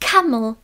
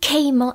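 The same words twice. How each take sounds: First: The first vowel is a wide open 'a'. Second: The first vowel is not a wide open 'a'. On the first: The speaker calls it right. "zase tam je to a, to otevřené áčko" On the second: The speaker calls it wrong. "Tohle není camel"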